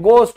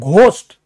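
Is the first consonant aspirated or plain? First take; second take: plain; aspirated. First: It starts with a plain g, no h sound. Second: It starts with a breathy gh sound. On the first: The speaker calls it right. "इसीलिए इसको गोस्ट बोलते हैं।" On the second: The speaker calls it wrong. "घोस्ट गलत, बिल्कुल गलत।"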